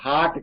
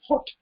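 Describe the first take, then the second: First: The vowel is open and unrounded, like heart. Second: The vowel is short with rounded lips. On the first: The speaker calls it wrong. "ஹார்ட் கிடையாது" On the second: The speaker calls it right.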